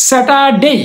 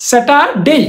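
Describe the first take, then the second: Both takes have the same delivery.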